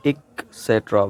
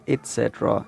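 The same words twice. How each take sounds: First: "et cetera" broken as IK, then SET-ra; wrong pronunciation. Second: "et cetera" with T, it-SET-ra; careful "et cetera" as et-SET-ra; correct pronunciation. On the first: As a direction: say "et cetera" with a K, pausing after ik. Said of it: "which is wrong". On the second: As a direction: say "et cetera" with a clear t before set. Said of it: "इसको हमने बोलना है". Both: Shown as a demonstration.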